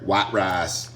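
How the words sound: It is said in a strong regional accent. This is how people say it locally.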